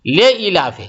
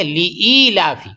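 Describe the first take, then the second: First: لے ایلاف with a flat "le" instead of a long "lee"; the incorrect way, لے ایلاف; wrong pronunciation. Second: لی ایلاف with a long "lee", slowly; slow, careful لی ایلاف; correct pronunciation. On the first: Retold or imitated. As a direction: demonstrate the students' error: لے ایلاف. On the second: Shown as a demonstration. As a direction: show the right reading, لی ایلاف drawn out. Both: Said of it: "تو لے ایلاف نہیں ہے".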